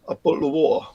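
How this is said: It is said in a working-class Estuary English accent. "estuarial English, which is working class from the same area"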